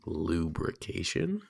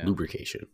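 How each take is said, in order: First: It is said like a question. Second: It is said like a confident statement.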